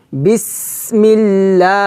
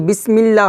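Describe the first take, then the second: First: বিসমিল্লাহ chanted slowly with a long hissed s; breath kept running. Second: বিসমিল্লাহ said quickly, without running breath on the s; wrong pronunciation. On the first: Teacher correcting learners, বিসমিল্লাহ with the s held on air. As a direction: draw out the s and last vowel of বিসমিল্লাহ. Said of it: "বাতাস চালু রাখবো". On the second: Teacher showing what not to say, বিসমিল্লাহ cut short. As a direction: say বিসমিল্লাহ short, as in plain speech. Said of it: "বিসমিল্লাহ হবে না". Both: Shown as a demonstration.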